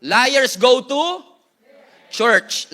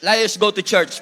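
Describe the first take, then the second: First: Very slow and louder with a pause before church; dramatic pause before church; slow, pausing. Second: Said in the usual way. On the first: Shown as a demonstration. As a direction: stretch out Liars go to, then hit church.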